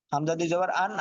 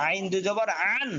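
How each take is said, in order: First: Said in the usual way. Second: "আন" squeezed from the throat, rising; pressed ain. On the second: Shown as a demonstration. Teacher showing ain against hamza, pressed throaty "আন". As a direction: press and stretch the start of "আন". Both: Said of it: "চাপ দিয়ে".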